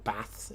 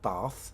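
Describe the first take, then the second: First: Bath is said with a northern English accent. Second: Bath is said with a southern English accent.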